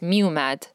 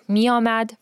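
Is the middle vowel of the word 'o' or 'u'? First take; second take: u; o. First: The middle vowel is pronounced as 'u'. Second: The middle vowel is pronounced as 'o'. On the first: This is the everyday conversational form. "usually in conversational, you will say miomad as miumad" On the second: This is the written, formal form. "it's written a certain way"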